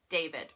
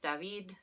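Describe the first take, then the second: First: The name is said with an American pronunciation. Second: The name is said with a non-American pronunciation. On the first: The speaker calls it wrong. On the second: The speaker calls it right.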